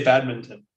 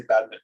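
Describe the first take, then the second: First: BADMINTON in three syllables, bad-min-ton; full badminton. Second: BADMINTON cut to "bad-min". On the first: Co-host shows how we say it, fully sounded. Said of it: "we say badminton". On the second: Co-host shows some US speakers' way, ending swallowed. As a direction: swallow the last syllable of BADMINTON. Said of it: "some people in the U S say badminton". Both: Shown as a demonstration.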